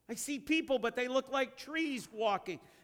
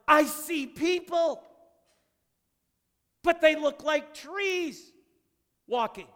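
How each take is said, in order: First: The line is read in a plain, calm tone. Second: The line is said with lively excitement.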